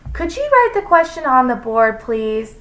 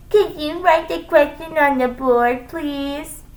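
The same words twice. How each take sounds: First: Put-on high-pitched child asking; pupil's polite request. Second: High, distorted mimicry; mocking. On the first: Pupil asking teacher to use the board, polite. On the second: Teacher parroting a pupil's request, mocking. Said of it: "In a mocking voice". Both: A narrator's reading.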